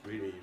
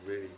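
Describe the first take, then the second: No difference in how they are said.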